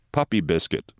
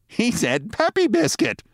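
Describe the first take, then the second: First: Said in the usual way. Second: Very high, slow mocking woman's voice; amused passerby. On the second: A narrator's reading. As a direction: repeat it high, tickled by the stranger. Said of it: "A woman who was passing laughed".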